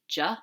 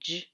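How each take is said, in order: First: The consonant is followed by an 'uh' vowel. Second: The consonant is clipped with no vowel after. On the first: The speaker calls it wrong. "instead of J" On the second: The speaker calls it right. "J should be J"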